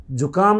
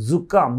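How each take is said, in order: First: जुकाम with a hard j as in jam, marked wrong; plain j sound. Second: जुकाम with a buzzing z at the start, the right way; buzzing z sound. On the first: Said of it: "जुकाम नहीं". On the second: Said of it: "खींच के बोलना पड़ेगा". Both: Shown as a demonstration.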